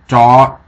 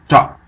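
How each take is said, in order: First: The vowel is held long. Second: The vowel is cut short. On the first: "without the mark, this would be" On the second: "So with the mark"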